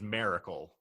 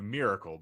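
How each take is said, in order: First: The word is said in a Southern accent. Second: The word is said in a standard accent. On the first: It imitates how someone else said it. "the way you pronounced it was miracle" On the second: It is the usual way to say it. "as opposed to miracle"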